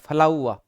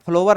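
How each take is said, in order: First: It is said like 'flau-a' without a final r. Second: It is said like 'flo-wer' with a final r. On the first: The speaker calls it right. "फलाउआ होता है" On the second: The speaker calls it wrong. "इसका उच्चारण फ्लावर नहीं होता"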